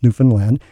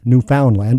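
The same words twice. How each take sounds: First: Newfoundland as NOO-fn-land, middle swallowed; local pronunciation. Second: Newfoundland as new-FOUND-land, full "found" vowel; English-speaking Canadian pronunciation. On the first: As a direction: reduce the "found" in Newfoundland to "fun". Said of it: "it's actually pronounced Newfoundland". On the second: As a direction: sound out every part of Newfoundland. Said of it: "for you more English-speaking Canadians". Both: Shown as a demonstration.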